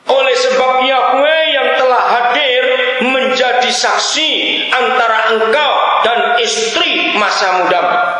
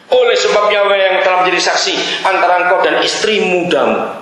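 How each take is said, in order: First: It is read slowly and carefully. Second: It is read fast and hurriedly.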